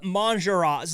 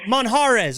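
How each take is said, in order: First: The J is pronounced as an English J sound. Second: The J is not pronounced as an English J. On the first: The speaker calls it wrong. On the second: The speaker calls it right.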